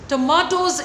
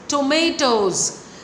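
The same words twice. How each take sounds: First: It is said with a British accent. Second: It is said with an American accent.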